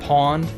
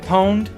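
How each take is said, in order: First: The word sounds just like 'pond'. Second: The word does not sound like 'pond'. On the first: This is the older way of saying it. "Back in the day, we pronounced it pond" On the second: This is the newer way that won out. "Some started pronouncing it pwned"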